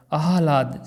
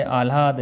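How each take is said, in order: First: आह्लाद as "aa-ha-laad"; correct pronunciation. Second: आह्लाद as "aal-aad", h lost after l; wrong pronunciation. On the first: Teacher likens it to another word, carefully pronounced. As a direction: open the h before l in आह्लाद. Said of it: "जैसे आह्वान". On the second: Teacher contrasts the faulty word, mispronounced. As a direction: slide the l early in आह्लाद. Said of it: "लय पूरा आएगा". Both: Shown as a demonstration.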